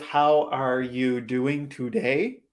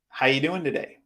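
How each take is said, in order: First: Every word, including 'are', is fully pronounced. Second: The word 'are' is dropped and speech is compressed. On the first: "Instead of" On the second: "we tend to compress speech or reduce speech to say it much faster"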